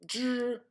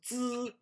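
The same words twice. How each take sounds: First: "Zh" as a deeper buzzed Z; deeper H sound. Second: "Z" as a held buzz, no H; vibrating Z sound. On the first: Teacher showing the added H, deeper buzzed Zh. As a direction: add the H to deepen "Zh". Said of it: "when I added the H". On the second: Teacher showing Z before adding H, plain buzzed sound. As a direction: buzz the "Z" by itself. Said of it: "as soon as you understand". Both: Shown as a demonstration.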